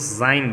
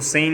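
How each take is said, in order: First: The vowel sounds like 'eye' in 'zine'. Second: The vowel sounds like 'eh' in 'sen'. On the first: The speaker calls it right. "उसको जाइन बोलेंगे" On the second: The speaker calls it wrong. "उसको सेन नहीं बोलेंगे"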